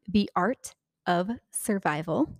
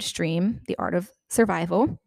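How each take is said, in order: First: The R and L sounds are carefully separated. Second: The R and L sounds run together unclearly. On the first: The speaker calls it right. "I'm trying to enunciate here. Let me try again" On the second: The speaker calls it wrong. "I have trouble with my R's and L's together"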